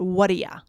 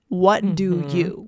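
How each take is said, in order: First: The words blend into one reduced word. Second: Each word is said clearly and separately. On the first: "We make it whatia" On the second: "connected speech for what do you?"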